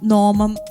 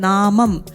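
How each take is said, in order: First: The first vowel sounds like 'o'. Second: The first vowel sounds like open 'aa'. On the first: The speaker calls it wrong. "ഓ വെക്കുമ്പോ നോ നോമം അങ്ങനെ ആയിപ്പോ" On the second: The speaker calls it right. "ആ എന്നുള്ളത് ആന്ന് തന്നെ കേൾക്കണം"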